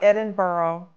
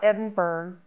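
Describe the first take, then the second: First: The last part sounds like borough. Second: The last part sounds like berg. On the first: "It's not Edinburgh. It's not an area in New York City" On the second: "It's not Edinburgh. It's not an iceberg"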